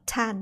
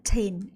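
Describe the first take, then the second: First: The vowel is a short 'a' sound. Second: The vowel is a long 'ay' sound. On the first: The speaker calls it wrong. "not tan" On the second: The speaker calls it right. "tain, a a sound"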